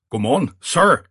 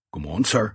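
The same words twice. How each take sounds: First: High, loud, startled greeting. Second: Careful, restrained greeting to a superior; cautious greeting. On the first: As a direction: greet the superior loudly, high-pitched. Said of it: "sagde med høj stemme". (med høj stemme) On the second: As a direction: greet the boss warily, without raising your voice. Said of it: "med et forsigtigt smil". (forsigtig, afdæmpet hilsen) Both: A narrator's reading.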